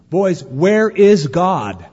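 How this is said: The question is asked somewhat firmly.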